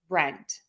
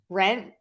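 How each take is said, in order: First: The final T is released with a puff. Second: The final T is stopped without release.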